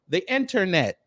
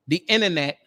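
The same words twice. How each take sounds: First: It is said in a careful, standard pronunciation. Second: It is said in a relaxed, dialect pronunciation. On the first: It avoids being judged as ignorant. "I had to say it the proper way" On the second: It is the way it is said among family. "for my family here, because we're among family"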